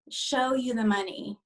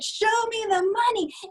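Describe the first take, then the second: First: It is said flatly, with low energy. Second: It is said loudly, with excited energy.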